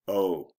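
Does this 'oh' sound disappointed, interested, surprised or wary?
disappointed. The 'oh' sounds disappointed. The speaker is let down by the news. "I'm disappointed"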